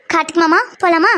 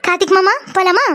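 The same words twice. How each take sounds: First: Grudging, mildly irritated request; annoyed. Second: Sweet request after a little laugh; smiling, affectionate. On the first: Young woman made to call him mama, mildly annoyed. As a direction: ask with a touch of anger, under protest. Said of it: "கோவம்லாம் வருதா?". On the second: Young woman obliging his demand to call him mama, smiling sweetly. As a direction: ask nicely with a smile, as told. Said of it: "அழகா, சிரிச்சுட்டே, ஆசையா கூப்பிடணும்". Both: Acted.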